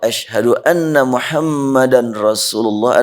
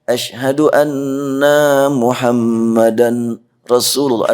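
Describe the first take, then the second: First: The vowel in anna is kept short. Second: The vowel in anna is drawn out long. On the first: I bear witness that Muhammad is the messenger. The speaker calls it right. "naknya pendek" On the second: We all are Muhammad, the messenger. The speaker calls it wrong. "kalau dibaca panjang"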